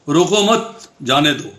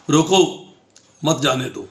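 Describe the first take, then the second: First: The pause comes right after 'mat'. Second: The pause comes right after 'roko'.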